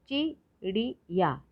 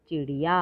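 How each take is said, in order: First: चिड़िया slowly split as चि, ड़ि, या; three separate beats in चिड़िया; syllable by syllable. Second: Said in the usual way. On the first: Shown as a demonstration. Teacher sounding out चिड़िया for learners, syllable by syllable. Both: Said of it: "तो शब्द पढ़ते हैं".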